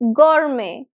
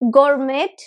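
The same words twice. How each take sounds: First: No T sound is heard at the end. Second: A T sound is pronounced at the end. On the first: The speaker calls it right. "the T at the end is silent. This is pronounced as gourmet" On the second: The speaker calls it wrong. "it's not gourmet"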